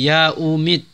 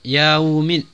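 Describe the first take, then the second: The two takes are said the same way.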